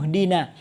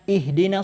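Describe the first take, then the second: First: The initial i sound is dropped entirely. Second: The initial i sound is clearly pronounced. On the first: The word is joined to the words before it. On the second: The reading starts at this word.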